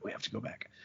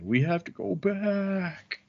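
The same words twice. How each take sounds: First: It is said in a plain voice. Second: It is said imitating Jack from Lost.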